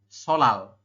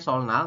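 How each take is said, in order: First: The middle sounds are a double l. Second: The middle sounds are an n followed by l. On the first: This is how the word is actually read. The speaker calls it right. "dibacanya tetap solal" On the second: This is how the word is spelled. The speaker calls it wrong. "tulisannya solnal"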